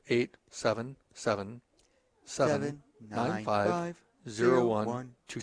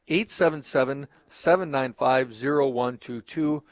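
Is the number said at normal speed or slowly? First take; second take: slowly; normal speed. First: The number is said slowly. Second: The number is said at normal speed.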